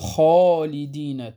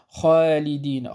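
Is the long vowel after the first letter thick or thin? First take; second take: thick; thin. First: The long vowel sounds heavy and thick. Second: The long vowel sounds light and thin. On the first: The speaker calls it right. "إنما نقول خالدين، تفخم لأن ما قبلها حرف الخاء" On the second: The speaker calls it wrong. "فلا نقول خالدين"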